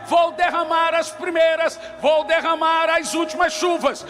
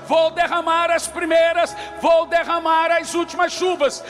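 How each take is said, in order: Both takes have the same delivery.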